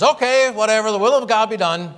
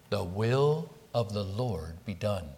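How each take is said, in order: First: "Okay, whatever, the will of God be done" high and loud, tossed off carelessly; dismissive shrug. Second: "The will of the Lord be done" said soft and slow, quiet reverent submission; sincere surrender. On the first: Retold or imitated. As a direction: throw up your hands and brush it off. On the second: Shown as a demonstration. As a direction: yield humbly to God's will, softly and slowly. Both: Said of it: "This is not just a throwing up of the hands".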